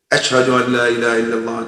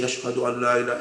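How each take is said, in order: First: Fast rote recitation mimicking a parrot; parrot reciting. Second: Soft heartfelt recitation. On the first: Alim's parrot reciting the call in class, quick rote chant. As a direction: rattle it off like a bird repeating words. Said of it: "learned how to say". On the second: Retold or imitated. Alim fearing death, softly reciting the testimony. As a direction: murmur it as a sincere believer. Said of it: "what I normally say".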